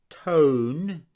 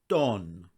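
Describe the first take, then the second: First: The vowel is a long gliding 'oh'. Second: The vowel is a short, pure 'o'. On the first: The speaker calls it wrong. "It's not tone" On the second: The speaker calls it right. "exactly the same as the omicron sound"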